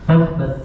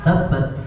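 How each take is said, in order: Both takes have the same delivery.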